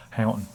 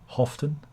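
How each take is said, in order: First: "Houghton" rhyming with "Loughton", an ow vowel. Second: "Houghton" with an f sound, like often. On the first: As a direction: say "Houghton" as HOW-tun. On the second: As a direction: say "Houghton" as HOFF-tun. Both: Shown as a demonstration. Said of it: "I live in Loughton".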